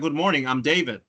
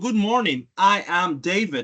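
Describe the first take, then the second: First: I am is contracted into one syllable. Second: I am is said as two full words. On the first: The speaker is introducing himself in a plainer, casual way. "Más llano" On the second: The speaker is introducing himself very formally. "Me estoy presentando de manera muy formal"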